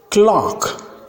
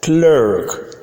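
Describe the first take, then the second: First: Clerk said as "clahk", written "clock"; British pronunciation. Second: "clerk" as "clurk" with r-colored vowel; American pronunciation. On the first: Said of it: "in British English". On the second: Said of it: "in American English". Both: Shown as a demonstration.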